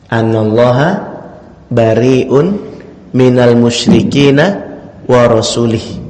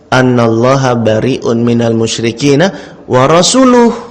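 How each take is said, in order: First: The final word ends with an 'ih' sound. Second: The final word ends with an 'uh' sound. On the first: God disowns the idolaters and also His messenger. The speaker calls it wrong. "Ini versi orang yang salah baca tadi ya" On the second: God and His messenger disown the idolaters. The speaker calls it right. "Padahal yang benar ayat Al-Quran bacanya apa ini?"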